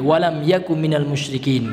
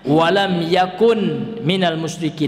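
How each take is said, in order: First: The word yakun is said without the final n. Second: The word yakun ends with an n sound. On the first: This form is lighter and easier to say. "Ini boleh diringankan" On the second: This is the original full form. "jadi asalnya walam yakun minal musyrikin, namun agak berat"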